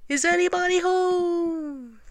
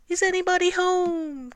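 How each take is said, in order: First: High, slow, drawn-out call. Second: Very loud call. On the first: Pooh calls into the rabbit hole, high drawn-out call. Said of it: "called out". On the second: Pooh calls into the hole once more, very loud high call. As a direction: call out insistently with long vowels. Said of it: "called out Pooh very loudly". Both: A narrator's reading.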